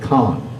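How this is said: It is said with a French pronunciation. "the French pronounce it Cannes"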